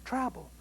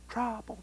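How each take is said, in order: Both takes have the same delivery.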